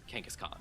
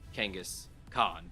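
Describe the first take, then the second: First: The name flows as one word without a break. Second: The name is split into two parts with a break. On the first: "like one word" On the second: "not Kangas Khan"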